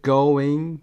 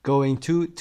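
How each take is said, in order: First: Going punched loud, as a single stressed word. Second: Going to with to reduced and unstressed; weak to. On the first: Teacher showing the stress lands on Going. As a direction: hit Going hard on its own. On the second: Teacher showing that to loses its stress in going to. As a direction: let the to fall away after going. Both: Shown as a demonstration. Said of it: "to استرسش پایین میاد".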